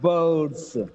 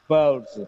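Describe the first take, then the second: First: The word ends with a hissing s sound. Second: The word ends with a buzzing z sound. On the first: The speaker calls it wrong. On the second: The speaker calls it right.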